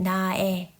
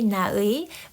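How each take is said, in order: First: The final vowel is said in the common way. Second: The final vowel is said in the careful way. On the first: "most people will pronounce it" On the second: "it's okay to say"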